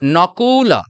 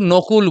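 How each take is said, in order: First: The name is said with Sanskrit-style vowels. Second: The name is said with Bengali-style vowels. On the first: The speaker calls it right. "এটা তাহলে কি হবে?" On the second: The speaker calls it wrong. "আমরা কিন্তু নকুল বলি, কিন্তু এখানে নকুল বলা যাবে না"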